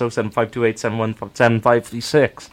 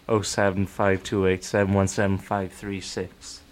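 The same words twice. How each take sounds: First: The number is said at normal speed. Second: The number is said slowly and droningly.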